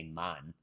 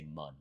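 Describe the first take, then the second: First: "man" with the American short A, as in "can". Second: "mun" with the vowel of the first syllable of Monday; Jamaican "mun". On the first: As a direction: say "man" as Americans do, the wrong way for Jamaica. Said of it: "they don't say". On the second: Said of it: "like Monday, the way you would pronounce". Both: Shown as a demonstration.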